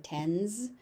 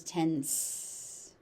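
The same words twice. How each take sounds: First: "tens" ending in a buzzing z; look-alike misreading. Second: "tense" ending in a long hissed s; correct ending. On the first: Teacher showing what the word looks like, buzzing z ending. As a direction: say "tens" with a z at the end. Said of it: "It kinda looks like tens". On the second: Teacher correcting the look-alike, long s ending. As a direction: finish "tense" on a sharp s, drawn out. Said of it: "but it's tense". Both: Shown as a demonstration.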